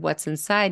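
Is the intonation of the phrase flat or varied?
varied. The phrase has normal varied intonation and stress. "instead of"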